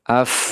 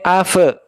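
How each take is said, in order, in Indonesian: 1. Konsonan terakhir berakhir halus tanpa pantulan. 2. Konsonan terakhir berakhir dengan gema memantul.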